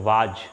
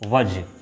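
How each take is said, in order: First: The vowel is long and open. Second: The vowel is short and reduced. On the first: The speaker calls it wrong. "गलत है" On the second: The speaker calls it right. "इसको पढ़ते हैं वज"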